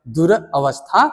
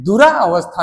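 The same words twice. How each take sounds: First: दुर अवस्था with दुर ending short on r; correct pronunciation. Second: दुरा अवस्था with a long aa ending दुरा; wrong pronunciation. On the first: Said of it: "दुर अवस्था होता है". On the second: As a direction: stretch the रा in दुरा अवस्था as the mistake. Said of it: "दुरा अवस्था नहीं होता है". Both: Shown as a demonstration.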